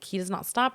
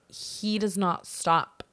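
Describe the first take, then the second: First: Said in the usual way. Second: "He does not stop" drawn out slowly, word by word; emphatic, spaced words. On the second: Retold or imitated. Insistent complaint retold to the boss.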